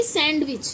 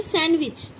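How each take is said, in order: First: „सैंडविच” as SAND-wich; wrong, d sounded. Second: „सैंडविच” as SAN-wich; silent d. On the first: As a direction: put an audible d in सैंडविच. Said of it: "सैंडविच नहीं होता". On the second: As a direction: say सैंडविच without the d. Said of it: "ना कि सैंडविच". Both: Shown as a demonstration.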